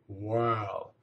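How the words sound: It is said with an English accent.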